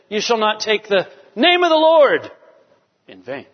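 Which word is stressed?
name. The stress is on the word name.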